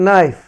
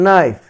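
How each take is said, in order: No difference in how they are said.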